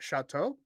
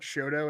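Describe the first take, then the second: First: It is said the French way, 'sha-toe'. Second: It is said plainly as 'show-toe'. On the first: An outsider said it this way. The speaker calls it wrong. "he's like Chateau" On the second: This is how locals say the street name. The speaker calls it right. "We call it Shoto"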